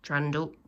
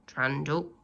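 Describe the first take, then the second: No difference in how they are said.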